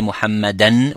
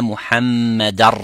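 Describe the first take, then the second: First: The word ends with an n sound. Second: The word ends with an r sound. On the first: The speaker calls it wrong. "you don't say muhammadan with the noon at the end" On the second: The speaker calls it right. "you say ashhadu anna muhammadar rasulullah"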